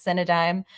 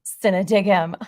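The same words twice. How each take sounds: First: Cinedigm said as sin-uh-dime; corrected pronunciation. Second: Cinedigm said as sin-uh-dig-um with a hard g; wrong pronunciation. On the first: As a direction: Cinedigm ending in dime, settled and plain. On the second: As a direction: Cinedigm ending in dig-um, louder. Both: Shown as a demonstration. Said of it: "I always pronounce things weird sometimes".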